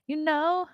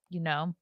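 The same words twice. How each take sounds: First: High, drawn-out rising "You know?"; playful questioning. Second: Said in the usual way. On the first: Pretend. Repeats phrase in raised questioning tune.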